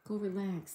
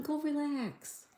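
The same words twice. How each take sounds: First: Said in the usual way. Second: Tender coo. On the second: Real, not acted. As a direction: coo it gently like to a pet. Telling sick viewer to rest.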